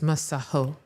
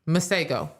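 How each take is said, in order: First: The middle consonant is a breathy h sound. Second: The middle consonant is a hard g sound. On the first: This is how the artist says his own name. The speaker calls it right. "It's a South African name. It's Masaho" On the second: This is how Americans have been saying the name. The speaker calls it wrong. "we have been pronouncing his name here in the good United States"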